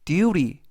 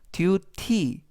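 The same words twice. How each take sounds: First: The middle sound is said soft and smooth. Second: The middle sound is said hard and crisp. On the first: The speaker calls it right. "부드럽게" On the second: The speaker calls it wrong. "duty 보다는"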